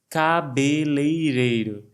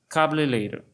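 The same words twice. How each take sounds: First: The word is said slowly, with every syllable clear. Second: The word is said quickly, with syllables run together. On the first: The speaker calls it right. "Vamos treinar?" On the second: The speaker calls it wrong. "Sempre sai uma coisa meio rápida"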